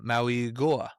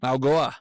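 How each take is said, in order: First: Each vowel is pronounced as its own syllable. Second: The vowels run together into fewer syllables.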